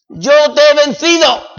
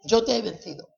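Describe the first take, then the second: First: Louder and higher proclamation of "Yo te he vencido"; "Yo te he vencido" rung out high and loud; triumphant declaration. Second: "Yo te he vencido" repeated much softer, an inward echo; hushed, settled repeat of "Yo te he vencido". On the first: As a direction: cry "Yo te he vencido" out to the whole church. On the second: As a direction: let "Yo te he vencido" fall quietly after the shout. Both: Acted. Proclaimed then echoed softly.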